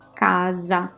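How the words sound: The middle consonant is a voiced z sound. The speaker is from northern or central Italy. "If people say casa, most probably they come either from the north"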